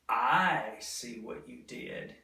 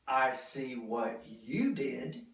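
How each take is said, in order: First: The word I carries the strong stress. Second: The word you carries the strong stress. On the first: Others may have missed it, but the speaker noticed. "I'm emphasizing that I saw it" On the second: It was this particular person who did it. "I'm emphasizing you"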